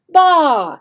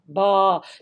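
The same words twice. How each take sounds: First: The pitch falls from high to low. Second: The pitch stays low. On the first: "a falling sound, okay, falling tone" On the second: "They have a low sound"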